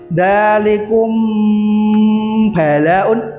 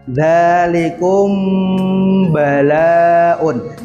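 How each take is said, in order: First: The m is doubled with lips pressed closed. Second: The m is hidden, gliding toward the b. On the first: The speaker calls it wrong. "tidak boleh dalikum mingkem, ... salah" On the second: The speaker calls it right. "Yang betul gimana? ... seolah-olah kita mau mengucapkan huruf ba"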